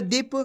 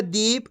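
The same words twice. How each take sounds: First: दीप said quickly as "dip"; quick short vowel. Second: दीप with a long, stretched ee; drawn-out vowel. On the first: Teacher contrasting short and long vowel signs, quick short vowel. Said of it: "जल्दी से हो रहा है". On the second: Teacher contrasting long and short vowel signs, drawn-out vowel. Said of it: "खींच को हो रहा है". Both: Shown as a demonstration.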